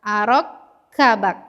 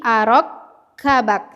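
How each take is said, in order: No difference in how they are said.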